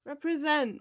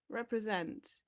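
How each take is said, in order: First: Represent called out higher and louder; rally the big-nose crowd with Represent; cheering represent. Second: Said in the usual way. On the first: Real, not acted. Teacher cheering on big-nosed viewers, a higher, louder Represent. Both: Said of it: "Represent, Miss Frizzle".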